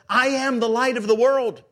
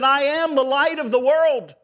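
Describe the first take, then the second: First: It is said a little louder. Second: It is said louder still.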